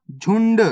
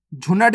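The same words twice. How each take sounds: First: झुंड as one syllable, "jhund"; correct half-letter reading. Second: झुनट as two syllables, "jhu-nat"; wrong full-letter reading. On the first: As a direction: run n straight into d in झुंड. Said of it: "झुनट नहीं पढ़ना". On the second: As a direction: put a vowel after n in झुनट. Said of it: "नहीं पढ़ना". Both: Shown as a demonstration.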